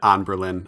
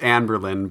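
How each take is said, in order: First: The first syllable sounds like 'on'. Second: The first syllable sounds like 'an'. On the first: The speaker calls it wrong. "I'm going to keep pronouncing it On Berlin" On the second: The speaker calls it right. "I know it's pronounced An Berlin"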